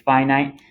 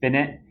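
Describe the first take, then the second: First: It sounds unlike the ending of infinite. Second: It sounds like the ending of infinite. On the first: The speaker calls it right. "But it's not, it's finite" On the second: The speaker calls it wrong. "most people think that's pronounced finite, which makes sense because if it's infinite, then it should be finite"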